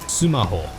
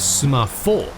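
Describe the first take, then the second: First: The middle consonant is an H sound. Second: The middle consonant is an F sound. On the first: "which are pronounced sumaho" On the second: "Now you'd think it would be sumafo"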